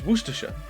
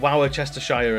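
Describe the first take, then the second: First: Many written letters are skipped, making it short. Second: The letters are sounded out, making it long. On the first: The speaker calls it right. "You can ignore most of them" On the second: The speaker calls it wrong. "It's not Worcestershire"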